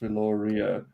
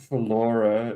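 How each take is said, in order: First: The R sound is clearly said in the name. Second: The R sound is left out of the name. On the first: The speaker calls it right. "The R is pronounced" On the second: The speaker calls it wrong. "It's not Philora"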